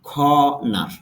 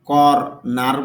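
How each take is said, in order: First: The first vowel is lengthened with no r. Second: An r sound follows the first vowel. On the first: The speaker calls it right. "এখানে র সাউন্ডটা নেই, তবে একটু টান হবে" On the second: The speaker calls it wrong. "যদিও আমরা কর নার বলি"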